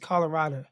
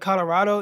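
First: It ends with an 'uh' sound. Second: It ends with an 'oh' sound.

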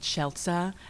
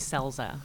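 First: The surname is said the original way. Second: The surname is said the Americanized way. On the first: This is the name's original pronunciation. "Your last name is pronounced Schelza" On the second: This is how the family says it in the U.S. "Because we Americanized it when we came to the U.S"

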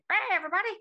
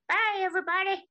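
First: It is said in a small put-on voice. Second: It is said in a normal speaking voice.

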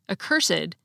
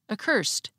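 First: The ed ending is its own extra syllable. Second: The ed ending is only a final consonant. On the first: "had the same unusual pronunciation of the suffix ed" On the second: "pronounced like most English words ending in ed"

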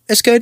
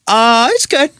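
First: The voice rises at the end. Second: The voice falls at the end. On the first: Something about the food is not quite right. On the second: The food really is fine.

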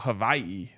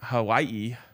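First: The middle consonant is a V sound. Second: The middle consonant is a W sound.

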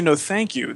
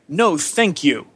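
First: It is said in a plain, polite tone. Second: It is said in a snotty, sassy tone. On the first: It is a sincere, courteous refusal. "they don't say" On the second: It is a rude, dismissive refusal. "there's too much attitude"

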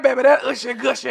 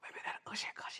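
First: It is said in a full, unwhispered voice. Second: It is said in a breathy whisper. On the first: "hopefully he don't sound like that" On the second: "what if he whispery?"

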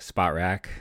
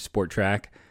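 First: The first syllable sounds like 'spot'. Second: The first syllable sounds like 'sport'. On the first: The speaker calls it right. "It's not Sport Track" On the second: The speaker calls it wrong. "I always say it wrong"

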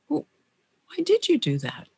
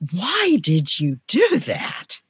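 First: It sounds open and genuinely curious. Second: It sounds accusing and judgmental. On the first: The speaker genuinely wants to understand. "it's purely from curiosity" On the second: The speaker is blaming the listener. "people typically cringe when I ask the first way"

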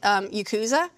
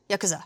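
First: The word is said with an English pronunciation. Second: The word is said with a Japanese pronunciation. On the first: The speaker calls it wrong. "I've always called it" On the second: The speaker calls it right. "they were pronouncing it like"

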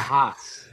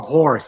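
First: The r is dropped in a Boston accent. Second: The r is pronounced in a standard accent. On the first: The speaker calls it wrong. "It's not a hoss" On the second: The speaker calls it right. "It's a horse"

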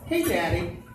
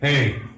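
First: The greeting sounds cheerful and relaxed. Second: The greeting sounds tense and panicked.

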